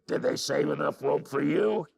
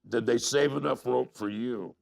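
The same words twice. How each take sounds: First: It is said in a rough, growly voice. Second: It is said in a plain, ordinary voice.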